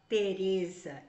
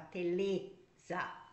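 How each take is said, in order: First: The middle consonant is an R sound. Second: The middle consonant is an L sound. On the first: The speaker calls it right. "eu não falava Teresa" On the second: The speaker calls it wrong. "eu falava Teleza"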